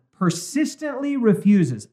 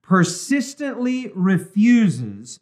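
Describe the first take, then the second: First: Deliberate, slow reading aloud; measured reading. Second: "persistently refuses" drawn out very slowly; emphatic repeat. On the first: Host reading the book to listeners, measured. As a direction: read it out slowly and clearly. First reading of quoted line. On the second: Host repeats the key phrase to underline it, emphatic. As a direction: underline "persistently refuses" by stretching each word. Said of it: "underline that". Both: Acted.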